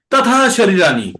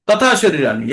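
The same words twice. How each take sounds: First: তথা lifted and pressed; stress on তথা. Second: Said in the usual way. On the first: Shown as a demonstration. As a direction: push তথা up. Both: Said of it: "প্রথম শব্দটির উপরে জোর দিতে হবে".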